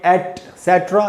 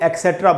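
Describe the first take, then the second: First: It begins with a t sound: et-setra. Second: It begins with a k sound: ek-setra. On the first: The speaker calls it right. "तो इसको बोलेंगे या तो बोलेंगे एटसेट्रा" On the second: The speaker calls it wrong. "हमें से बहुत लोग इसको एक्सेट्रा बोल देते हैं। क क नहीं है दोस्तों"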